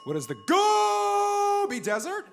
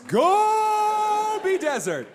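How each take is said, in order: First: "Gobi" hugely stretched on its first syllable, ending as a question; goal call as question. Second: "Gobi" belted with a very long first syllable, then falling; goal call as statement. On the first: Contestant phrasing the answer as a question, mock goal call. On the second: Contestant correcting a question into an answer, mock goal call. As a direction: yell a stretched-out "Gobi" and land it firmly. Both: Pretend. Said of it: "Could you answer it not in a question".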